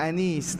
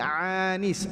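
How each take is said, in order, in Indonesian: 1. Kata ini dimulai dengan vokal biasa. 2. Kata ini dimulai dengan bunyi tenggorokan 'ain'. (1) "Bukan anis" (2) "pakai ain"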